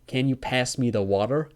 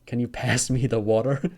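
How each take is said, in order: Both takes have the same delivery.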